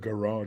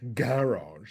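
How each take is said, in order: First: It is said the American way. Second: It is said the British way. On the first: "instead of garage" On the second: "you guys say garage"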